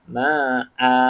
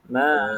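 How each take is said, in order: First: The vowel is held for two beats. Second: The vowel is cut off short. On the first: "tanwin ni baris atas kena baca dengan dua harakat" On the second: "baru kita matikan"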